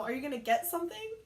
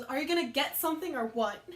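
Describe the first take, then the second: First: Higher-pitched retold question, rising at the end; prodding question. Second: Louder, punchy retold last attempt; exasperated demand. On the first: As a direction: imitate a coworker prodding a customer. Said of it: "I heard Donna go". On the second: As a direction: press the customer for an answer. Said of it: "And then finally, the last one goes".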